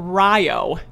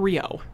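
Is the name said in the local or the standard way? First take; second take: local; standard. First: The name is said the local way. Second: The name is said the standard way. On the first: This is how the town's name is said. The speaker calls it right. "And we have a Rio" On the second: This is not how the town's name is said. The speaker calls it wrong. "not Rio"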